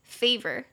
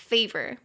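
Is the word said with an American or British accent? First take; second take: American; American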